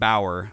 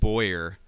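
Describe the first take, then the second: First: The first syllable rhymes with cow. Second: The first syllable rhymes with toy. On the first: The speaker calls it right. "Bauer, I believe, is how you say it" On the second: The speaker calls it wrong. "I was pronouncing his last name wrong. I said Boyer"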